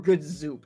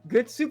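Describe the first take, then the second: First: The last word begins with a z sound. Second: The last word begins with an s sound.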